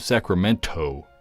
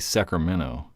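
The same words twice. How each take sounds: First: The t near the end is clearly pronounced. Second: The t near the end is dropped. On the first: This is how local people say it. "but we're like" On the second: This is how people from elsewhere say it. "They like don't pronounce the T in the end"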